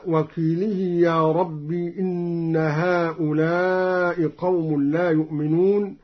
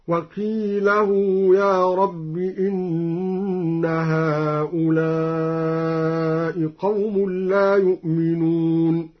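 First: Said in the usual way. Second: Slow chant, وقيله said wa-qeelahoo; drawn-out tajwid, وقيله ending in -lahoo; open lam, damma ha. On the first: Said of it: "قرأ الدوري بفتح اللام وضم". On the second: Shown as a demonstration. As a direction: recite وقيله with la and a long hoo. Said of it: "بفتح اللام وضم الهاء موصولة بواو".

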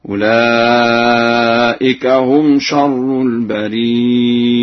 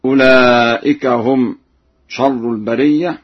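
First: Slow chant, البرية as al-barii'a with hamza; ya then hamza. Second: Said in the usual way. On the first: Shown as a demonstration. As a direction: draw out long ii, then glottal stop in البرية. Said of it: "بياء ساكنة بعدها همزة هكذا". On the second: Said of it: "قرأ ورش بياء ساكنة بعدها".

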